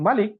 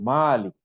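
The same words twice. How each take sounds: First: The vowel after the m is short. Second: The vowel after the m is long. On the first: A king or sovereign ruler. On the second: An owner of property such as land.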